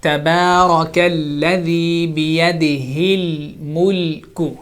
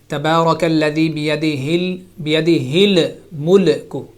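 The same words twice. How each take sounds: First: الملك with a smooth, sticking ل; correct lam recitation. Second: الملك with a little bounce after the ل; bouncy qalqala wrongly put on the ل of الملك; imitated bouncing lam. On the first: Shown as a demonstration. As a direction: keep the tongue resting on the ل in الملك. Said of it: "now I'm reciting". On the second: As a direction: echo the mistake, releasing the ل in الملك into a short extra vowel. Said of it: "you said".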